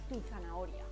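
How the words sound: Tu is unstressed and joined to zanahoria. The speaker calls it right. "decimos tu zanahoria"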